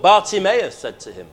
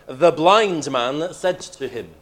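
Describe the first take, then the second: First: Said in the usual way. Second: Blind drawn out slowly and lifted; slow, lean hard on the word blind; stress on blind. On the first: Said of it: "He could have put". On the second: Shown as a demonstration. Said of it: "to emphasize".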